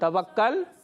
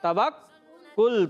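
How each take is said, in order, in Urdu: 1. آخری سلیبل میں a کی آواز ہے۔ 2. آخری سلیبل میں u کی آواز ہے۔ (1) "توکل نہیں" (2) "کاف پر پیش"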